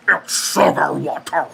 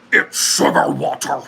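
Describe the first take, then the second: First: A slow put-on voice; movie quote impression. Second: Movie quote impression. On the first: Repeating the movie quote for viewers to guess: slow put-on voice. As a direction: deliver the line like the film character, slowly. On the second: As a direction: breathe the line like the film character. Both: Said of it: "this one comes with another impression".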